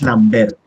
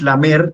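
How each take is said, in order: First: It has an m followed by b. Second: It has a plain m with no b. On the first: This is the local dialect form. "sino que es" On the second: This is the standard form, not the local one. "no es"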